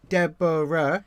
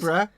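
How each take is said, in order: First: The name is said with three syllables. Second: The name is said with two syllables. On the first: "Deborah has three syllables" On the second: "Deborah has two syllables"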